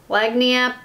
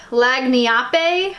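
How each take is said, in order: First: LAGNIAPPE as flat-vowelled lag-nee-AP; American pronunciation. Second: LAGNIAPPE as lag-nee-AH-pay, questioning; Italian-style pronunciation. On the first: For American people who can't pronounce things, Americanized LAGNIAPPE. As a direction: drop the final -ay from LAGNIAPPE, American style. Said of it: "for us American people". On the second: Wanting it to be an Italian word, Italian-style LAGNIAPPE. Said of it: "pronounce it like an Italian word". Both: Shown as a demonstration.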